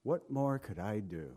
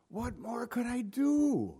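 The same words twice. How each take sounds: First: Low, soft, heartfelt question; God's earnest, subdued appeal; wholehearted, sincere plea. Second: High, slow, put-on voice; mock God wailing in despair; exaggerated wailing plea. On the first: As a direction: ask it quietly from the heart. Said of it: "he'd say it with all of his heart". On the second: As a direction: ham up a drawn-out lament. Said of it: "I don't think he'd say it like that". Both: Shown as a demonstration.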